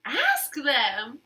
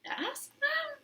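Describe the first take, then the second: First: Said in the usual way. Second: High, soft little voice; Piggy quietly suggesting; Piggy's suggestion. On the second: Acted. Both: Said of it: "said Piggy".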